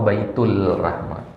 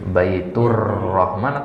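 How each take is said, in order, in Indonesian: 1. Bunyi L ada sebelum Rahman. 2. Bunyi R ada sebelum Rahman.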